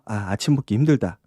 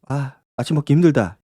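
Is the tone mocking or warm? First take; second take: mocking; warm. First: It is said with a mocking, sneering laugh. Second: It is said in a warm, caring way.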